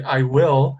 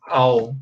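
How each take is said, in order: First: "I will" with both words said apart; "I will" said as two clear words; two separate words. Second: "I'll" said as one syllable, al; "I'll" run together into a single sound; contracted. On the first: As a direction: keep "I will" fully separate. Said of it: "pronunciar as duas palavras separately". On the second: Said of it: "the pronunciation is like this". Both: Shown as a demonstration.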